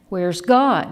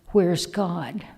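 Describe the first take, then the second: First: It is asked in a sterner, harsher voice. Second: It is asked sternly but less harshly.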